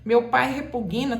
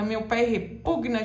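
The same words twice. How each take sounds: First: "repugna" dito como "repuguina"; pronúncia errada. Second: "repugna" com G mudo, tônica no PU; pronúncia correta. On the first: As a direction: diga "repugna" com um I intruso depois do G. ("repugna" errado, soando "repuguina") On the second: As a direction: prenda o G de "repugna" direto no N. ("repugna" certo, re-PUG-na) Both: Shown as a demonstration. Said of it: "tá errado".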